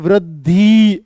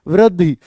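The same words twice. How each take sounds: First: The final vowel is stretched out long. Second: The final vowel is kept short and quick. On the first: The speaker calls it wrong. "यहाँ पे वृद्धि ऐसे नहीं बोल सकते इसको" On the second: The speaker calls it right. "वृद्धि बस ऐसे बोलते हैं"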